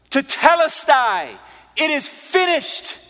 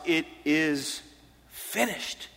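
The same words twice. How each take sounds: First: High, slow, ringing proclamation; loud cry. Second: Soft, slow delivery with a pause before the last word; hushed quoted declaration. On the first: Preacher re-enacting Jesus' cry from the cross, loud. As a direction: cry it out loudly, drawing out each word. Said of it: "he spoke it loudly". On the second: Preacher first quoting Jesus' words from the cross to listeners, hushed. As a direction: let the last word drop away softly. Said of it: "Jesus said from the cross". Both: Retold or imitated.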